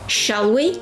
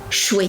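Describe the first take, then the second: First: Both words are said fully and separately. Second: The words are squeezed into one quick syllable.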